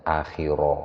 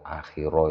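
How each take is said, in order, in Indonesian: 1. Bunyi r-nya tebal, dengan vokal yang membulat. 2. Bunyi r-nya tebal, dengan vokal yang membulat.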